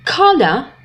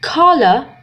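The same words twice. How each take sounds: First: It is said in a British accent. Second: The same.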